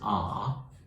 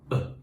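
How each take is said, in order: First: It has a full vowel and clear r. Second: It is reduced to a short schwa. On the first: "the strong form" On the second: "the weak form"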